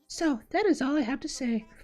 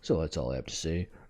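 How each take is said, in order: First: It is said in a normal voice. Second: It is said in a deep voice.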